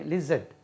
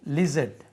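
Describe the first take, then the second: The two takes are said the same way.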